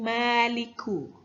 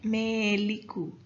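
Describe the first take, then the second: First: The first vowel is an open a sound. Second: The first vowel is fronted toward an e sound.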